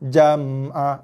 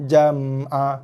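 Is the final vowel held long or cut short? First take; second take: short; short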